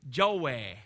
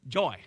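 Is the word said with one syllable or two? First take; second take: two; one. First: The word is drawn out into two syllables. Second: The word is said as one syllable. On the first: The speaker calls it wrong. "You can tell I'm from Arkansas because it's got two syllables" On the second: The speaker calls it right. "Try to say it right"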